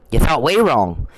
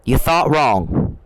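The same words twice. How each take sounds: First: "way" punched hard and held; stress on way. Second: Drawn out, slow, every word weighed; slow taunt. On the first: To the candidate, mocking with "way" hit hard. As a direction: lean into "way" to rub it in. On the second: To the candidate, a slow mocking put-down. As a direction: let it land slowly, mocking him. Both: Real, not acted. Taunting a politician he's angry at.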